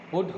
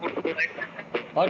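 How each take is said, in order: First: The vowel does not sound like the one in cut. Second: The vowel sounds like the one in cut. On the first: It is how the word is actually said. The speaker calls it right. "पुट होता है" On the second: It follows the spelling pattern of a similar word. The speaker calls it wrong. "अगर सी U T कट होता है तो P U T क्या होना चाहिए? पट होना चाहिए था"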